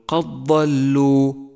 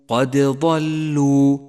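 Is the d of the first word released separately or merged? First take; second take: merged; released. First: The d merges into the following d sound. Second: The d is released with a bounce. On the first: The speaker calls it wrong. "ولا تقل قد ضلوا، فإنه خطأ شائع" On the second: The speaker calls it right. "وبالغ في إظهار صفة القلقلة لحرف الدال"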